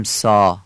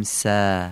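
First: سا with a dark Persian "aa"; wrong heavy alef. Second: سا with a thin, front long "aa"; light alef. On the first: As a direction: say سا as a back, rounded "saw". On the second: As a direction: say سا as a drawn-out "sæ". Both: Shown as a demonstration.

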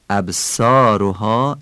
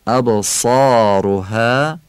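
First: "ابصارها" with a light s and Persian o; Persian accent. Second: "ابصارها" slowly, with a full, heavy Arabic saad; Arabic accent. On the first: Teacher shows the tone to avoid, Persian accent. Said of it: "این لحن فارسیه". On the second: Teacher shows the correct tone, Arabic accent. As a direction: say "ابصارها" in drawn-out Arabic articulation. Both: Shown as a demonstration.

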